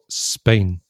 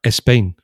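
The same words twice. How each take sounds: First: No extra vowel sound comes before the 's'. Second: An extra 'e' vowel sound comes before the 's'. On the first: The speaker calls it right. "instead of Spain" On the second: The speaker calls it wrong. "they'll say Spain instead of"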